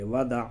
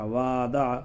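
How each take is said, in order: First: The vowels are short and read quickly. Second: The vowels are stretched out long. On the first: The speaker calls it right. "सीधा सिंपल पढ़ेंगे" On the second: The speaker calls it wrong. "यूँ नहीं पढ़ेंगे"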